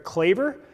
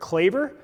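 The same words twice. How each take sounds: First: It is said with an American English pronunciation. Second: It is said with an American English pronunciation.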